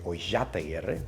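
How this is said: The double L is said as sh. This is the Buenos Aires form. "If you're from Buenos Aires, you would say Oillataguerre, because the two L's would give us a sha sound"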